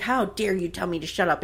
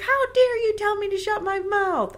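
First: Restrained mock indignation, no shriek; in-your-face challenge. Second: High-pitched, indignant screech; mock outrage. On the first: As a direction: imitate a contained face-to-face confrontation. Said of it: "she gets right in his face". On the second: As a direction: play a wife shrieking back, hammed up. Wife's outraged retort in acted quarrel.

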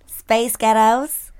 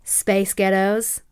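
First: Slow American accent, Space Ghettos drawn out; repeating it in an American accent. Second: Slow American accent, Space Ghettos drawn out; copying the American accent. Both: Shown as a demonstration. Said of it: "Do it again".

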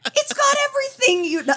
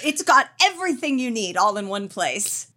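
First: High excited pitch. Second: Said in the usual way. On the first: Real, not acted. Bragging about Vegas, suddenly pitched high. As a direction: voice jumps up high on got.

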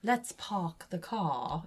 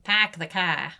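First: "park the car" as "pahk the caw", very slow; low, soft, stretched "park" without its R; drawn-out dropped R. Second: Boston "pahk the cah", R's dropped; flat-A Boston accent, "car" as "cah"; lower-pitched New England R-drop. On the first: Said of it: "So instead of". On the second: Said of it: "the New England accent". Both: Shown as a demonstration.

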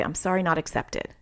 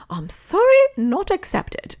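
First: Said in the usual way. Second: Much higher, squeaky cartoonish voice, drawn out at the end; jokey silly voice. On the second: Mom jokingly refusing her son's compulsive apology, in a silly high voice. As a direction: tease him in a goofy high-pitched voice, stretching "not accepted". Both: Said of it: "I'd say it kind of in a jokey way".

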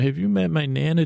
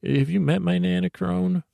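First: Slightly raised, quick, lightly voiced crone; a hint of a teasing goddess, brisk; the Crone's voice, lightly done. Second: Higher granny voice; Nana's voice. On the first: The Crone teasing him about his Nana, slightly raised and quick. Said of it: "And I can hear you saying". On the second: Retold or imitated. Grandma Nana introducing herself to the Crone in a higher granny voice. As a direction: pipe up like a little old grandma. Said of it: "and Nana's like".

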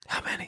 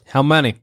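First: Hushed whispered question. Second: Said in the usual way. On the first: Acted. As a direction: drop to a whisper to match the scout. Repeats it, matching the whispering scout.

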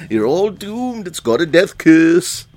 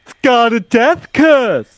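First: High ominous warning, echoing the line; doom-laden old man prophecy; Crazy Ralph voice. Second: Slow ominous raspy drawl; high, slow doom-laden warning; Crazy Ralph voice. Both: Retold or imitated. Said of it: "You gotta do the line".

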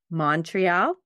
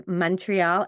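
First: Montreal said as "Mon-tree-all"; outsider pronunciation. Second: Montreal said as "Mun-tree-all"; first vowel of Montreal like "mun"; local pronunciation. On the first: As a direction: open "ah" in the first syllable of Montreal. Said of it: "and not Montreal". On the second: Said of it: "Even how we say Montreal". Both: Shown as a demonstration.

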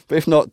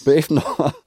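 First: Laughing through the words. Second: Said in the usual way. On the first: Real, not acted. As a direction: giggle while reading it.

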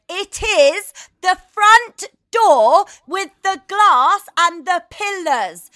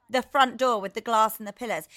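First: Higher, louder and slow, word by word; shouting the same directions at the confused driver; exasperated shout. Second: Said in the usual way. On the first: Retold or imitated. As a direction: bellow it out slowly in frustration. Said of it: "It ends in me going". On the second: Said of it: "And I was like".

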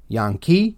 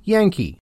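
First: "Yankee" as Yahn-kee, low with a slight rise; Jan Kees run together. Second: "Yankee" as YANG-kee, higher and falling; everyday English pronunciation. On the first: Joining two Dutch names for the audience, "Yankee" as Yahn-kee. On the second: Revealing the word from the joined names, "Yankee" as YANG-kee. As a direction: land on "Yankee" with a short English a, pitched up. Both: Shown as a demonstration. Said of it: "Run both of those names together".

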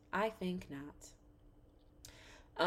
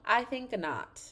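First: Very soft, slow refusal; hushed dismissal. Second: Raised pitch falling away on a firm refusal; firm dismissal. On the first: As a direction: repeat it slowly under your breath. Dismissal repeated under the breath. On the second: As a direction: dismiss it firmly, starting high. Dismissing the trip, first take. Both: Real, not acted.

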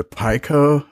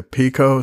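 First: Pico said as PY-koh; PY-koh pronunciation. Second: Pico said as PEE-koh; PEE-koh pronunciation. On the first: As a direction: say Pico with a first syllable like "pie". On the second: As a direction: say Pico with a first syllable like "pea". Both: Shown as a demonstration. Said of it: "some people say Pico".

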